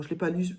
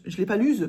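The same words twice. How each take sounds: First: Said in the usual way. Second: "je l'ai pas lue" said louder and insistent; louder emphatic repeat. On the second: Real, not acted.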